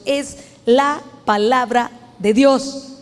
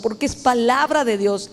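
First: "es la palabra de Dios" slowed, leaning on "Dios" with a rise; slow, deliberate weight on "Dios"; stress on Dios. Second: Said in the usual way. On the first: Shown as a demonstration. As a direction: drag out "palabra de Dios", lifting "Dios". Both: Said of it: "Se lo enfatizo".

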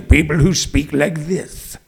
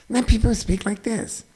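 First: Low, slow judge voice; old scary judge. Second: Very soft, thin cartoon voice; tiny squeaky voice, mocking; squeaky-voiced judge. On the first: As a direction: speak it low and grave. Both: Shown as a demonstration.

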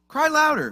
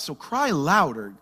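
First: Higher, louder taunting cry louder; sarcastic call to shout louder; mocking shout. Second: Said in the usual way. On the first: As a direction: egg them on in mock shout. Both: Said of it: "Elijah mocked them".

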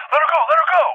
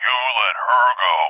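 First: High-pitched panicked demand; retold frantic plea. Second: Deliberate creature retort, well below the frantic plea; menacing elephant voice. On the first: Parent to the elephant holding the daughter, acted frantic demand. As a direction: act out losing it, urgently. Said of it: "I'm losing my fucking shit". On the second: Retold or imitated. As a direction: answer coolly as a threatening beast. Elephant answers back in creature voice.

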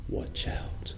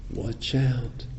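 First: Hushed, breathy warning whisper. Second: Said in the usual way. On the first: Shown as a demonstration. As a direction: whisper it like a secret alarm. Warning about dropping the watch.

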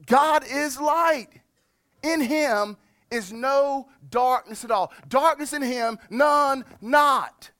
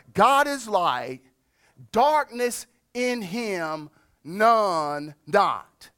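First: Much higher and louder, slow, ringing "God is light"; proclaimed verse. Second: Slow, deliberate, each phrase set apart; measured Greek reading. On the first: Pastor proclaiming God's holiness to the congregation, loud and slow. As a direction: proclaim it, each phrase hammered home. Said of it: "he describes it like this". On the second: Pastor reading the literal Greek to his church, slow and deliberate. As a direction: lay out "God is light, darkness in him, none not" slowly with pauses. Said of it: "That's literally how this verse reads". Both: Shown as a demonstration.

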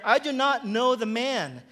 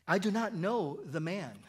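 First: Louder, higher, emphatic scripture reading; cursing, sworn denial. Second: Measured, firm denial read from scripture; sworn denial. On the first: Peter swears to bystanders he doesn't know Jesus, raised-voice denial. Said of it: "invoke a curse on himself and to swear". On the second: Peter denies Jesus to the bystanders, restrained sworn denial. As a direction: deny it on oath, without raising the voice. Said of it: "denied it with an oath". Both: A narrator's reading.

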